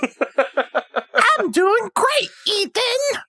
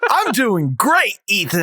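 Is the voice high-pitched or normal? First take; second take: high-pitched; normal. First: It is said in a higher, put-on voice. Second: It is said in his normal voice. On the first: "put a little bit of treble in my voice" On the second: "you need to start faking it a little bit"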